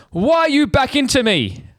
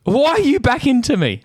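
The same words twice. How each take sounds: First: Much higher, slow whiny mock voice; mocking the other driver. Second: Mocking the other driver. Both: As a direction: mimic the guilty driver in a high, whining tone. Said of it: "He goes".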